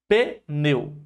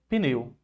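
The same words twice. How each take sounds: First: The first consonant is split off as a syllable. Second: The whole word is said as one syllable. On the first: The speaker calls it wrong. "muitas pessoas pensam que a separação é essa aqui" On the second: The speaker calls it right. "Tudo junto"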